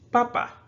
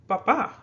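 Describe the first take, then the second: First: The stress is on the first syllable. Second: The stress is on the last syllable. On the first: "has a naturally stressed syllable here" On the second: "you're going to stress that syllable on the final one"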